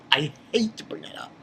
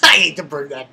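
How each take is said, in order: First: Whispered, embarrassed aside; a real hushed aside. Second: Said in the usual way. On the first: Real, not acted. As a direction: drop to a whisper, sheepish. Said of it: "plain first try". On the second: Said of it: "repeats it whispered".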